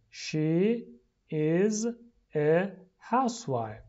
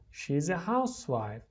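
First: "She ... is ... a housewife" with pauses between words; slow, separated model reading for repeating. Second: Said in the usual way. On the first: Shown as a demonstration. Teacher drills the sentence for repeating, word by word.

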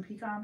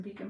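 First: "pecan" said pee-KAHN. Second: "pecan" said PEEK-in, rhyming with deacon. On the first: Testing herself with a pie request, "pecan" as pee-KAHN. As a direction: open the end of "pecan" to a long AH, pee-kahn. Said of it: "I definitely say pecan". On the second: Testing herself with a pie request, "pecan" rhymed with deacon. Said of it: "I said pecan like deacon". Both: Shown as a demonstration.

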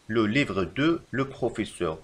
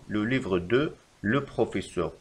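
First: Very slow wrong example; slow dictation. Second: Slow, even reread; slow repeat. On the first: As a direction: dictate it slowly. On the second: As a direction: repeat it slowly. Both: Shown as a demonstration. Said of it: "فالخطأ في هذه الجملة".

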